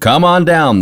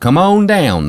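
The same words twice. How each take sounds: First: It has a standard American 'on' sound. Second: It has a Southern 'own' sound for 'on'.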